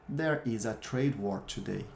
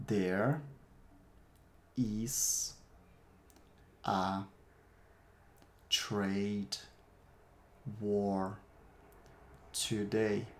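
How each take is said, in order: First: Said in the usual way. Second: Slow, one word at a time with long pauses. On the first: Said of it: "Eu vou repetir cada uma das frases". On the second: Shown as a demonstration. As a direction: give each word alone for repeating. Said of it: "Repete aí".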